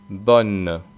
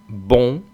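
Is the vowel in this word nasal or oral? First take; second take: oral; nasal. First: The vowel is oral, with a clear final n. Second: The vowel is nasal, with no clear final n. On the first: "la no nasal, la española" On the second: "la nasal"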